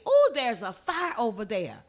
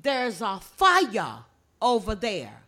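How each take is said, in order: First: "fire" said the standard English way. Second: "fire" drawn out as "fi-yah"; Gullah FIRE. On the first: Gullah teacher showing visitors their own English, "fire" pronounced standardly. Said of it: "where you would say". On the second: Teacher showing visitors the Gullah word, "fire" said slowly as "fi-yah". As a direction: stretch "fire" into two slow syllables, "fi-yah". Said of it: "In Gullah, we say". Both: Shown as a demonstration.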